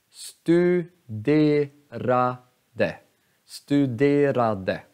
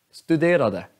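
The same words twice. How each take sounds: First: Studerade drawn out slowly, syllable by syllable. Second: Said in the usual way. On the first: Shown as a demonstration. Teacher counts syllables for students, slowly. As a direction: stretch each syllable. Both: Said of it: "Alltså studerade".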